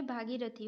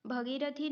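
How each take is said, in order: First: भागीरथी with long first vowel, bhaagirathi; correct pronunciation. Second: भगीरथी with short first vowel, bhagirathi; wrong pronunciation. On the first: Teacher giving the correct spelling, भागीरथी with long "bhaa". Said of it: "होता है". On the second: Teacher rejecting a misspelling, भगीरथी with short "bha". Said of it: "नहीं होता है". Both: Shown as a demonstration.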